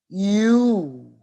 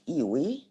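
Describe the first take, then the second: First: It is said as one syllable, like you. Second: It is said as two syllables, ee-wee. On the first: The speaker calls it right. "The correct pronunciation is you" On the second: The speaker calls it wrong. "No, it's not Iwi"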